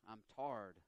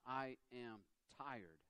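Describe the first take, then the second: First: Low Southern drawl on "tarred"; southern dialect. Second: Slow, soft, weary admission; weary quote. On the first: Shown as a demonstration. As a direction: say tired as "tarred", Southern style. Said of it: "speak it in my southern dialect". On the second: Acted. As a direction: say it slowly, worn down.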